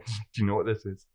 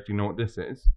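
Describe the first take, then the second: First: It is asked in a teasing, suggestive tone. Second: It is asked in a plain, straightforward tone. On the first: It hints at a dirty meaning. "You can almost see their brain going" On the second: It is a simple, innocent question. "They're not going to try anything funny"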